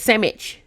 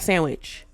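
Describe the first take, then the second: First: The word is said with 'mm' and no 'w'. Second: The word is said with a clear 'nd' and 'w'. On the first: The speaker calls it right. "It's actually S A M M I C" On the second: The speaker calls it wrong. "It's not sandwich"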